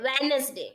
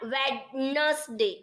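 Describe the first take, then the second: First: The d sound in the middle is silent. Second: The d sound in the middle is pronounced. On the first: The speaker calls it right. "આપણે ડી નથી બોલતા" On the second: The speaker calls it wrong. "not Wednesday"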